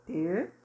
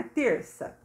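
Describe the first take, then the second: First: "Terça" broken by a long pause; syllable by syllable. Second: Said in the usual way. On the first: Shown as a demonstration. Teacher writing the word out, split "Terça". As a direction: dictate "Terça" one syllable at a time. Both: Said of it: "separada as duas sílabas".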